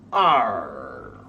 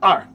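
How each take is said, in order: First: The sound is stretched out long. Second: The sound is clipped short. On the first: The speaker calls it right. "pull it long. Say R" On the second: The speaker calls it wrong. "don't say short. Don't do R"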